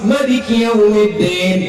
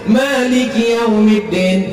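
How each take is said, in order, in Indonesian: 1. Vokal setelah m dibaca pendek. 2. Vokal setelah m dibaca panjang.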